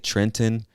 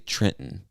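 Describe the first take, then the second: First: The second t is clearly pronounced. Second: The second t is changed and not fully pronounced. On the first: "Some people would say" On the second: "I would say Trenton. So that second T becomes"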